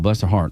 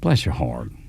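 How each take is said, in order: First: It sounds sincerely sympathetic. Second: It sounds mockingly condescending.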